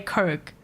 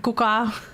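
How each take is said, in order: First: It is said in the speaker's plain accent. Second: It is said in an imitated foreign accent. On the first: "they don't even say Coke" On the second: "It's like a kuka"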